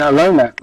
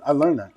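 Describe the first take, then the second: First: "I learned that" said louder with a falling stress on "learned"; emphatic. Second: Said in the usual way. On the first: Real, not acted. Telling a friend a life lesson, "I learned that" said louder and emphatic. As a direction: punch "learned" in "I learned that".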